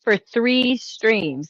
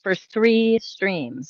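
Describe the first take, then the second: First: "three" drawn out slowly; slow it down, lean on "three"; stress on three. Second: "three" slow and weighty again; stress on three. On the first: Streamer stressing how long they ranted, slow emphasis on "three". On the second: Streamer repeating for emphasis, slow "three". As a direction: repeat it slowly, hitting "three". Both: Shown as a demonstration.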